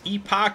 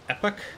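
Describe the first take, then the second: First: The word is said with a British pronunciation. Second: The word is said with an American pronunciation. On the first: "the U K pronunciation" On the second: "in the U S, I guess it's normally pronounced Epoch"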